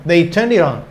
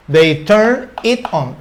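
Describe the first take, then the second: First: Said in the usual way. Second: Slow, deliberate model phrase; slow teaching read. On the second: Shown as a demonstration. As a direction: lay out each word for the learners. (frase modelo lenta y deliberada) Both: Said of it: "puedo decir".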